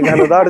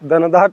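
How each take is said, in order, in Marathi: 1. शब्द श्वासयुक्त 'gh' आवाजाने सुरू होतो. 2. शब्द साध्या 'd' आवाजाने सुरू होतो. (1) "घनदाट जंगल आहे" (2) "दनदाट नाही"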